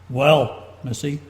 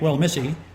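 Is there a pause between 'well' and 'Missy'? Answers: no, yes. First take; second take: yes; no. First: The phrase is broken up with a pause. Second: The phrase runs together without a pause. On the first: "chop things, the sentence up" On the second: "Instead of saying it"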